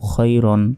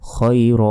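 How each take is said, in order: First: The word ends with an n sound. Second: The word ends with a lengthened vowel. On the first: The reading continues without stopping. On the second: The reading stops at this word.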